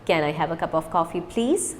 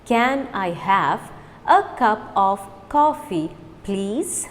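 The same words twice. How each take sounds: First: Quick, words run together; fast. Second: Slow, careful model; slow repeat. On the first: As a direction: rattle it off fast. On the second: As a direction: say each word slowly for learners. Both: Shown as a demonstration. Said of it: "Now repeat with me fast".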